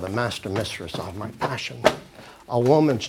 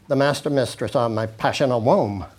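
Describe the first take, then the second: First: There is a pause after passion. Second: There is no pause after passion. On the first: The speaker calls it right. "See? Because if you didn't do that, you'd have two unstressed syllables coming together" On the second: The speaker calls it wrong. "See, you can't do that"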